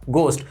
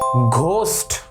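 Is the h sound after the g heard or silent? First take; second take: silent; heard. First: The g has no breathy h sound after it. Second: The g is followed by a breathy h sound. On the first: The speaker calls it right. "क्योंकि एच इसके अंदर silent होता है" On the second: The speaker calls it wrong. "घोस्ट तो तब आएगा जब आप चीटिंग करोगे"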